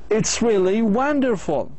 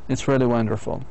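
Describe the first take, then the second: First: The voice rises excitedly on the stressed syllables. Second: The voice stays level without rising on stresses. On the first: The speaker is very happy about it. "إذن أنا I am very happy" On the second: The speaker is not very interested. "See the intonation of my voice is just going normally"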